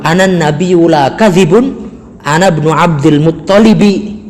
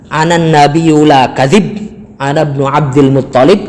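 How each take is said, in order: First: The word ends with the added ending -un. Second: The word ends bare, with no vowel after b. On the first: The line does not fit the poetic meter. "Kalau bacanya seperti itu menjadi tidak sesuai bait syair" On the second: The line fits the poetic meter. "kalau bacanya anan nabiyyu la kadzib ana ibnu Abdul Muttalib, itu sesuai dengan bait syair"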